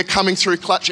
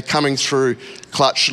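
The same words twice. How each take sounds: First: Said in the usual way. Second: Coming through clutch, slow and lower, each word weighted; slow emphatic title. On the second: Shown as a demonstration. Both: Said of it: "For all your older people here".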